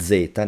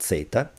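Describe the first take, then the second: First: The z is voiced, like dz. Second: The z is voiceless, like ts. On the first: The speaker calls it right. "Exceptions. ... even if there's a T, you say" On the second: The speaker calls it wrong.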